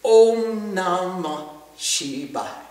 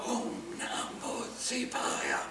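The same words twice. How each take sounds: First: Slow, drawn-out chant of Om Namah Shivaya. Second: Soft slow whisper of Om Namah Shivaya; whispered on the inhale. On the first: Teacher leads the class in a slow mantra chant. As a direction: chant it slowly, each syllable long. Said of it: "It says". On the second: Teacher whispers the mantra while inhaling. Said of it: "And we'll inhale". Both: Shown as a demonstration.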